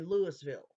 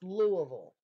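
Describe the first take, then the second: First: The name is said as it is spelled. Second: The name is said the local way. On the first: The speaker calls it wrong. "because of how it's spelt, people say Louisville" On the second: The speaker calls it right. "it's pronounced Louisville"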